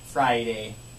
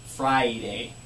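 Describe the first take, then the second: Both takes have the same delivery.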